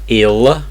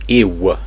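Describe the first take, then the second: First: The final sound is a clear L. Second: The final sound is a W-like vowel. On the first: The speaker calls it wrong. "not ill" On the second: The speaker calls it right. "So it's a W sound"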